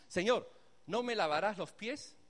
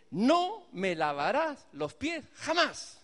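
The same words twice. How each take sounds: First: Said in the usual way. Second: Slow, louder, defiant refusal of the Master. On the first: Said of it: "Pedro le está diciendo lo mismo". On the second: Acted. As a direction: draw each word out in bold rebellion. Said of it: "qué retador, qué rebelde".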